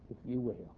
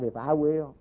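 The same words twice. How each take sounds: First: "you" leaned on, soft and falling; stress on you. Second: "I" pointed out as the wrong word, in a plain voice; stress on I. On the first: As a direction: put the weight on "you" in "if you will". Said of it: "That's repentance". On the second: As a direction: contrast it, lean on "I" in "If I will". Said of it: "It's not". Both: Shown as a demonstration.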